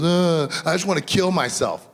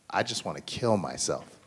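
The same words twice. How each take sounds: First: Put-on high, loud wail of a hurt kid; upset child outburst. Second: Said in the usual way. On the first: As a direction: imitate a seven-year-old crying it out, pitched up. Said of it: "And she goes". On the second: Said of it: "saying the words".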